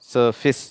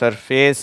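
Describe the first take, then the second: First: The last syllable sounds like 'fiss'. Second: The last syllable sounds like 'face'. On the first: The speaker calls it right. "சர்ஃபிஸ் அப்படின்னு படிப்பாங்க" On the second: The speaker calls it wrong. "இது வந்து சர்ஃபேஸ் இல்லை"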